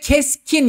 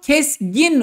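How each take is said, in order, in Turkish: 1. Orta küme k sesiyle söylenir. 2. Orta küme g sesiyle söylenir. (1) "G olmadığı için onu kendine benzetiyor ve keskin yapıyor" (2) "Aslında bu kesgin olacak"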